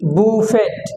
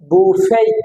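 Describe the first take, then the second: First: The word ends with a t sound. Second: The word ends without a t sound. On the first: The speaker calls it wrong. "বুফেট নয়" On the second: The speaker calls it right. "হবে বুফে"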